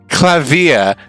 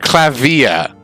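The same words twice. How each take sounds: First: The ending is squeezed into one syllable. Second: The ending is split into two syllables. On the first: The speaker calls it wrong. "You said it as like one syllable, like Clavier, like as in via ring" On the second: The speaker calls it right. "whereas I said via, like enunciating the e"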